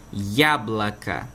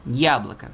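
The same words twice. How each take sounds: First: Яблоко said slowly, YA-bla-ka with o's as a; Russian pronunciation. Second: Яблоко repeated, YA-bla-ka; Russian pronunciation. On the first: Teacher repeats яблоко for students, slow and careful. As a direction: spell out яблоко with reduced vowels. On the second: Teacher repeats яблоко for students, clear model. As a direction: say яблоко once more, first syllable stressed. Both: Shown as a demonstration. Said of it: "passam a ter um som similar ao som do, da letra A".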